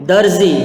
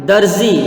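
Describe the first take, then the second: Both takes have the same delivery.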